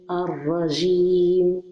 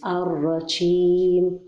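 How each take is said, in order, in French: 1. La consonne du milieu se prononce comme 'j'. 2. La consonne du milieu se prononce comme 'sh'. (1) "ou bien dire ar-rajim" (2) "il ne faut pas mélanger le son de la lettre shin comme ceci"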